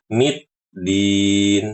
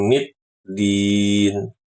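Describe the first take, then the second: No difference in how they are said.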